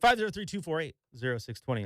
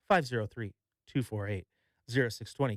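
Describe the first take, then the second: First: The number is said at a faster pace. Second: The number is said at a slower pace.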